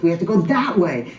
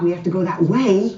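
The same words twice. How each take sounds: First: The word 'that' carries strong stress. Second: The word 'that' carries no special stress.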